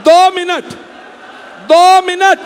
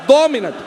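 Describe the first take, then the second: First: High, loud plea to the crowd. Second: Said in the usual way. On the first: Real, not acted. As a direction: raise the voice over the crowd. Pleading with the crowd. (भीड़ से ऊँची, ज़ोरदार मिन्नत)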